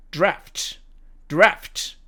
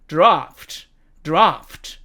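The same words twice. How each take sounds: First: American "draft", front a; American demo of "draft"; American accent. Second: British "draft" with long ah; British demo of "draft"; British accent. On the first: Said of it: "미국식 발음으로 읽으면". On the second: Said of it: "영국식 발음으로 읽으면". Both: Shown as a demonstration.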